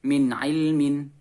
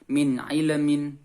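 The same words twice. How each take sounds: First: The l is held still without any echo vowel. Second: The l is bounced with an extra echo vowel. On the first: The speaker calls it right. "harus tetap dibaca sesuai dengan hurufnya" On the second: The speaker calls it wrong. "yang biasanya tawallud seperti ini"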